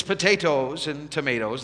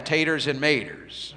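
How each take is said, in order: First: Potatoes and tomatoes with every syllable sounded; full potatoes. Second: Taters and maters clipped country style, no po- or to-; folksy taters. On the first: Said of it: "it's potatoes and tomatoes". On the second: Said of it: "they call those taters". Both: Shown as a demonstration.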